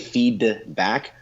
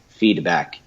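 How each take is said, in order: First: The d is fully released, like two words. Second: The d is a quick tap of the tongue. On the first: The speaker calls it wrong. "you shouldn't say feed back" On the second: The speaker calls it right. "tapping my tongue very quickly at this part"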